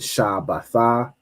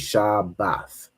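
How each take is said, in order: First: The word ends with an extra vowel sound. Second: The word ends on a consonant sound. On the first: The speaker calls it wrong. "instead of saying Shabbatha" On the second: The speaker calls it right. "you say Shabbath"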